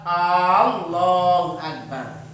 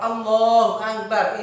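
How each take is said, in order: First: The opening vowel of Allah is drawn out long. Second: The opening vowel of Allah is said short. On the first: It becomes a question whether God is the greatest. The speaker calls it wrong. "Tidak boleh memanjangkan hamzahnya" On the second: God is the greatest. The speaker calls it right. "ini artinya Allah Maha Besar"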